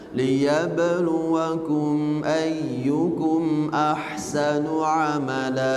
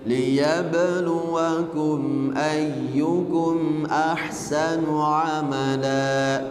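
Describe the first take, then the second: The two takes are said the same way.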